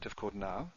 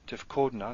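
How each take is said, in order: First: The stress falls on the last syllable. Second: The stress falls before the last syllable. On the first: The speaker calls it wrong. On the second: The speaker calls it right. "the stress is at the end for all of them, except for these two"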